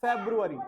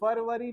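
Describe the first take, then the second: First: फरवरी said as "Febru-ary" with an f and a b; फरवरी with an English f and b, februari; correct English "February". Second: फरवरी said as "Parvari" with a p and a v; फरवरी the desi way, pərʋəri, the version to avoid; wrong way, Hindi "Farvari". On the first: Teacher to class, modelling the correct English pronunciation. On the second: Teacher to class, showing the mispronunciation to avoid. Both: Shown as a demonstration. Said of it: "फरवरी नहीं".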